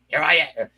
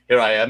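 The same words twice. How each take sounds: First: It is said in a Columbo-like voice. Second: It is said in a Frasier-like voice.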